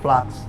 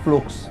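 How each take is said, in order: First: The word is pronounced in an English style. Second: The word is pronounced in a German style. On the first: "kalau nyebutinnya ala-ala Inggris atau Amerika" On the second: "kalau kita nyebutinnya ala-ala Jerman"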